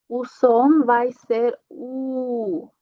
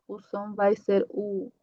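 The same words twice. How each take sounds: First: U drawn out slowly and clearly; slow down and give the U sound; slow demo of U. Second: Said in the usual way. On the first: Shown as a demonstration. Teacher slowly telling students final L sounds like U.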